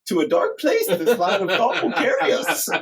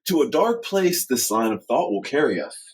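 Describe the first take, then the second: First: It is said in a put-on character voice. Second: It is said in a natural speaking voice. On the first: The speaker calls it right. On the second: The speaker calls it wrong.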